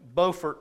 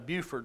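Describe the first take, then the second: First: It is said the North Carolina way. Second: It is said the South Carolina way. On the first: "There is a Beaufort, North Carolina" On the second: "and a Buford, South Carolina. You spell it the same way"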